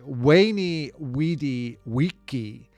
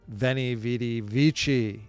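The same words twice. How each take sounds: First: It is pronounced in the classical Latin way. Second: It is pronounced in a non-classical, anglicized way.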